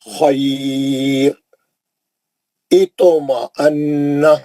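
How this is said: The voice stops after the first word.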